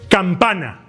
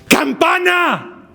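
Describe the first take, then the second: First: It is said moderately loud, not shouted. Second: It is shouted with a strained, raspy voice.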